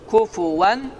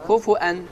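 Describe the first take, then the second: First: A w sound comes before the final vowel. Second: A glottal stop comes before the final vowel. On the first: This is the form of the Hafs reading. "Həfsan asm qirayətinə görə kufuvan" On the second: This is the form of the Warsh reading. "varş qirayətinə görə kufuən"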